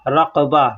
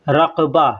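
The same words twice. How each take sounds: Both takes have the same delivery.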